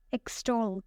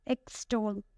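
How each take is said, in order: First: Said in the usual way. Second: "Extol" split as ex-TOL; stress on second syllable. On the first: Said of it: "The next word is extol". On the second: Shown as a demonstration. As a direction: model "Extol" in two parts, weight on TOL. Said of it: "the stress is on the second one".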